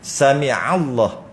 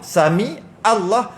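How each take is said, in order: First: A deep throat sound links 'sami' to 'Allah'. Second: A plain glottal stop links 'sami' to 'Allah'. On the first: The speaker calls it right. "sebut ain" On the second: The speaker calls it wrong. "ain hilang, tak ada pahala"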